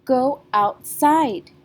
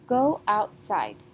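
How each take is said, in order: First: "Go outside." slow and much louder, side punched hard; teacher has the class try "Go outside." with big stress. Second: "Go outside." said slowly, side a little louder; first model "Go outside." with a gentle lean on side; teacher modelling the stress in "Go outside.". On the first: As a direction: belt out "Go outside." hitting side. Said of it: "So let's try that". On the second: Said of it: "The last syllable, side, sounds louder than out". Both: Shown as a demonstration.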